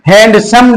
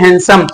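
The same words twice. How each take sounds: First: Every written letter is sounded. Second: A written letter is left silent. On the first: "लिखा होता है" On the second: "लेकिन पढ़ते हैं"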